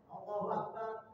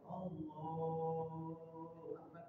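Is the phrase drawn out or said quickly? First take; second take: quickly; drawn out. First: The phrase is said quickly and short. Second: The phrase is drawn out long.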